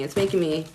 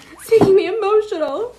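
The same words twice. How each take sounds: First: Said in the usual way. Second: Real emotion welling up mid-sentence; getting choked up, pitch jumping high; crying. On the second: Real, not acted. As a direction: voice breaking high into tears.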